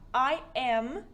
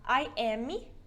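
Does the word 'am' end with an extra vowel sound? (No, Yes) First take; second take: No; Yes. First: The word am ends cleanly on the m sound. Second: The word am ends with an added ee vowel. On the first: The speaker calls it right. "esse am é A-M. A-M, sozinho" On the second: The speaker calls it wrong. "você não pode falar I am, porque não tem um i no final"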